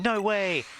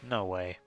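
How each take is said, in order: First: It sounds excited and amazed. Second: It sounds doubtful and dismissive. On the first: The speaker believes it is a shiny. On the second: The speaker believes it is not a shiny.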